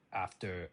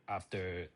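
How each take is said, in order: Both takes have the same delivery.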